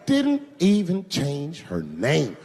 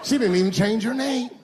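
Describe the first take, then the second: First: Slow, word-by-word disbelief; slow emphatic repeat. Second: High-pitched mock disbelief; incredulous. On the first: Acted. Comedian repeating point about Rachel, slow and deliberate. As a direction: spell it out slowly, letting each word land. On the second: Comedian mocking Rachel's commitment, high incredulous voice. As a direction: say it as an astonished complaint. Repeats punchline two ways.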